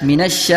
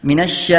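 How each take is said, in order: No difference in how they are said.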